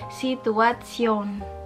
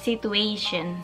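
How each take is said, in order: First: The word is pronounced the German way. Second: The word is pronounced the English way. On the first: "dalam bahasa Jerman ... yang beda itu cara penyampaiannya atau cara pelafalannya, yaitu Situation" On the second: "Contoh yang pertama kata situation"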